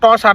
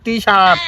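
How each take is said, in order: First: The first syllable has a short 'tuh' vowel. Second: The first syllable has a long 'tee' vowel. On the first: The speaker calls it wrong. "ট shirt না" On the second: The speaker calls it right.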